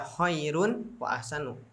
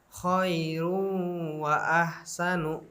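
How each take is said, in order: First: The n sound is pronounced clearly before w. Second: The n sound merges into the following w. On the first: The speaker calls it wrong. "enggak dibaca khairun wa ahsanu" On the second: The speaker calls it right. "dibaca dengan bacaan khairu wa ahsanu"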